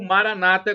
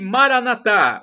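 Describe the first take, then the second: First: The stress is on the second-to-last syllable. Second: The stress is on the last syllable. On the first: This is how evangelicals say it. "como dizem os evangélicos... eles dizem com a tônica na penúltima sílaba" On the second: This is how Catholics say it. "Nós dizemos com a tônica na última sílaba"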